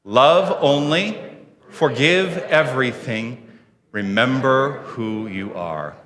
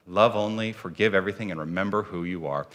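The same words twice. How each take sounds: First: Slow, spaced-out mission statement; deliberate words with pauses for joining in; group recitation. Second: Low, hushed repeat of the creed; quiet, lowered affirmation falling away; soft restatement. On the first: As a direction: lead the room phrase by phrase. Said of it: "share the words of our mission statement". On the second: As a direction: let it settle softly in one flowing phrase. Repeats the mission statement as reflection. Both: Real, not acted.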